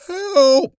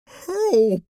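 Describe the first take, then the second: First: Much higher, far louder desperate scream; final scream. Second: Much higher, loud gurgling cry; gurgled cry for help. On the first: Swelling woman's last cry to the crowd, desperate scream. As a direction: scream it at full force. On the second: Swelling woman crying to the crowd, gurgling cry for help. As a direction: call out drowning in her own swelling. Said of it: "she gurgled". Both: Acted.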